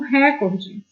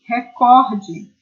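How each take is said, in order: First: The stress is on the first syllable. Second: The stress is on the second syllable. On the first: The speaker calls it wrong. "as pessoas costumam pronunciar como recorde" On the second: The speaker calls it right. "em português a pronúncia é recorde"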